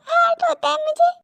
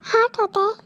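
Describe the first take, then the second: First: High, pained admission; hurt plea. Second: Said in the usual way. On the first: Acted. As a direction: let the hurt lift the voice high. Hurt woman says it hurts.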